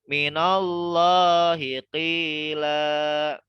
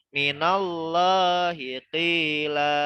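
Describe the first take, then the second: No difference in how they are said.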